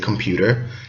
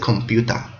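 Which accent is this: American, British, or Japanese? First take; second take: American; Japanese. First: It is said in an American accent. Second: It is said in a Japanese accent.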